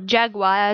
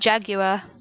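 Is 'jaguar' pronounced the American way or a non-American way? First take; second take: American; non-American. First: Jaguar is said with an American pronunciation. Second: Jaguar is said with a non-American pronunciation.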